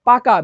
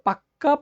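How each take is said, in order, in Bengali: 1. মাঝের ব্যঞ্জনটি ছোট ও একক। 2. মাঝের ব্যঞ্জনটি লম্বা ও দ্বিত্ব।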